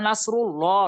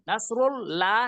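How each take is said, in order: First: The L of Allah is heavy and full. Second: The L of Allah is light and thin. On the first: The speaker calls it right. "পেশ বা জবর থাকলে আল্লাহ শব্দের লামকে মোটা করে পড়তে হবে" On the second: The speaker calls it wrong. "নাসরুল লা নয়"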